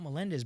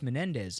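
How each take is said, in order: First: The second syllable starts with an L sound. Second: The second syllable starts with an N sound. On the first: The speaker calls it wrong. "It's not Melendez" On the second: The speaker calls it right. "It's Menendez"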